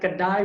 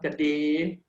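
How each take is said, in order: First: The word ends with an ai diphthong. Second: The word ends with a plain e vowel. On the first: This is the standard Malay pronunciation. "the ai sound at the end" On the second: This is the community's own dialect pronunciation. "will become your ay sound"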